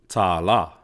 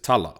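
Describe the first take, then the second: First: Both syllables are stressed, with long vowels. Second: Only the first syllable is stressed; vowels are short. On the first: It means dollar. "these macrons over both of those ahs" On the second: It means a story or to talk. "you would just emphasize the first syllable"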